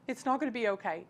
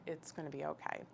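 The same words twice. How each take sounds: First: Higher retold protest from a distraught friend; imitating an upset friend's objection. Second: Soft, calm retold comfort; hushed, steady reassurance. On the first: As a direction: push back against comfort, voice raised in pitch. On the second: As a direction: answer the panic quietly and calmly. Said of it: "my reaction was so calm".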